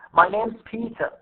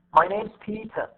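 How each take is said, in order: First: Only name and Peter are stressed. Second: Only name and Peter are stressed.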